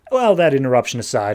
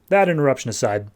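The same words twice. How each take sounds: First: Brisk recorder voice; quick dictation into a recorder; dictating aside. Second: Said in the usual way. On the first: Retold or imitated. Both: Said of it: "talking into his little tape recorder".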